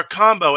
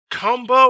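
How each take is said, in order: First: "combo" with an open "ah" first vowel; first vowel of "combo" as in "calm"; standard pronunciation. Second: "combo" with an "uh" first vowel; first vowel of "combo" as in "cup"; country-accent pronunciation. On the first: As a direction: say "combo" like "kahm-bo". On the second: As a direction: say "combo" like "cum-bo". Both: Retold or imitated. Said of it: "as soon as he finished combo".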